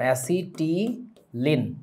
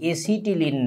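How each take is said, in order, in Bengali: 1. প্রথম স্বরধ্বনিটি 'cat' শব্দের 'a'-এর মতো। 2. প্রথম স্বরধ্বনিটি 'cat' শব্দের 'a'-এর মতো নয়। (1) "অ্যা দিয়ে উচ্চারণ" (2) "এসিটিলিন না"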